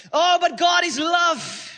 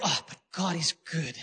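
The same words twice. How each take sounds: First: High, loud, slow mock protest. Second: Low, soft mock pleading; soft excuse. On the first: Sinner argues away God's judgment, loud high protest. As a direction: cry out the excuse, stretched out. Acted excuse, louder repeat. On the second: Sinner argues away God's judgment, soft low excuse. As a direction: murmur a self-soothing excuse. Acted excuse, set against louder repeat.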